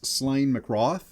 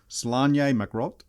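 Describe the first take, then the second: First: The first name ends in a plain 'n' sound. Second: The first name ends in a 'nye' sound. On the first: This is how Americans would say the name. The speaker calls it wrong. "that's how us in America would say it" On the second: This is the Celtic way of saying the name. The speaker calls it right. "it's pr- actually pronounced Slanye McRoth"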